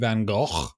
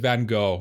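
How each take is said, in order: First: Gogh has a harsh, throaty, rasping sound. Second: Gogh is said plainly, without a rasping sound. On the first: "it sounds like you're uh, trying to spit up something" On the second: "I'll just pronounce it Van Gogh from now on"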